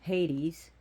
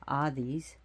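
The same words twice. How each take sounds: First: The name is said with an English pronunciation. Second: The name is said with a Greek pronunciation.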